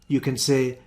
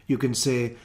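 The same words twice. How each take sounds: The two takes are said the same way.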